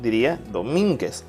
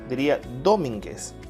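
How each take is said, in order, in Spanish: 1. El acento está en la segunda sílaba. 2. El acento está en la primera sílaba. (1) "Si lo ponemos en min" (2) "Si lo ponemos en do"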